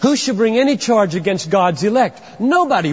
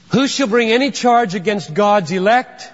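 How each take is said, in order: First: "should" in place of "shall", spoken a little higher; alternate wording. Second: WHO lifted high, question rising at the end; stress on WHO. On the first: Preacher showing how Paul could have phrased it. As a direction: read it the other way, with should. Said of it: "he could have said". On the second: Preacher reading the verse aloud, stressing Who. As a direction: lean into the word Who and let it climb. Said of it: "Let me say it out loud". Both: Shown as a demonstration.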